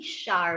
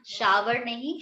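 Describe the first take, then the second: First: शावर said as one syllable, "shar", lower; teacher giving the right form; correct shower. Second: शावर said in two syllables, "sha-ver", rising; the wrong शावर, drawn out as "sha-wer"; teacher showing the common mistake; wrong shower. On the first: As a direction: clip शावर to a single falling "shar". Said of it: "शावर बोलते हैं". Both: Shown as a demonstration.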